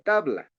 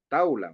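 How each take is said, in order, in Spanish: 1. La palabra tiene un sonido de b. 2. La b se reemplaza por la vocal u. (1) "Dime tabla"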